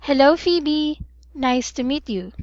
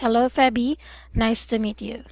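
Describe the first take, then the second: First: Hello is said on a high pitch. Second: Hello is said on a normal pitch. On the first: The speaker calls it wrong. "it should not be in a high tone. ... So it's not like that" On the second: The speaker calls it right. "It's just"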